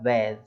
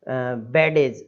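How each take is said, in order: First: The d is silent before the final sound. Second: The d is sounded out separately. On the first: The speaker calls it right. "डी silent हो जाएगा" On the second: The speaker calls it wrong. "इस तरीके से नहीं पढ़ना"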